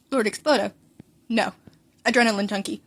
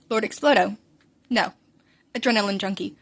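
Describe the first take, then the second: No difference in how they are said.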